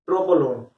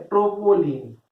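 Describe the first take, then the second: First: ट्रोपोलोन said with a final "-lon"; corrected name. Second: ट्रोपोलिन said with a final "-lin", the slip; name it as ट्रोपोलिन, ending in "lin"; wrong name. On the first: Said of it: "ट्रोपोलोन नहीं, ट्रोपोलोन". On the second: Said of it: "ट्रो-, अ, sorry". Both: Real, not acted.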